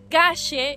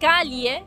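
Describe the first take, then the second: First: The ll sounds like an English sh. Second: The ll sounds like a palatal ly. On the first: "como si fuese C H en tu caso y S H en el nuestro" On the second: "como si fuese L H en tu caso y li para nosotros"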